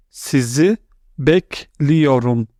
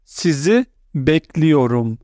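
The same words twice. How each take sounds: First: "Sizi", then "bekliyorum." said slowly; slow split model pronunciation. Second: Said in the usual way. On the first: Shown as a demonstration. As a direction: say "bekliyorum." slowly and clearly after a pause. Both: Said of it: "the formal way is".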